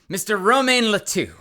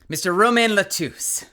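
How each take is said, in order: First: The surname ends without an S sound. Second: The surname ends with an audible S sound. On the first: "Would would you pronounce the S or would that be silent" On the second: "You would pronounce it since it ends in an E?"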